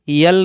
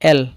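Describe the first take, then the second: First: It begins with a y sound before the vowel. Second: It begins directly with the e vowel. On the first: The speaker calls it wrong. "इसे यल नहीं" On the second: The speaker calls it right. "एल पढ़ा जाता है"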